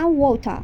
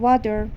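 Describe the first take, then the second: First: It is said with a Persian accent. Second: It is said with an American accent. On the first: The speaker calls it wrong. "لهجه فارسی ایرانیه" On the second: The speaker calls it right. "لهجه امریکاییش میشه water"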